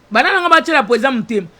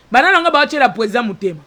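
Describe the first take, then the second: No difference in how they are said.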